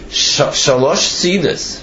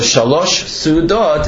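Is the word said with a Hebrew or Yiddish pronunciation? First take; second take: Yiddish; Hebrew. First: It ends with an 'is' sound, Yiddish style. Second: It ends with an 'ot' sound, Hebrew style. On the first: "with the Yiddish pronunciation" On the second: "if you say it in regular Hebrew"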